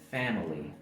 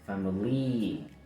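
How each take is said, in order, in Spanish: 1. La vocal final es corta. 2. La vocal final es larga. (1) "el sonido va a ser corto"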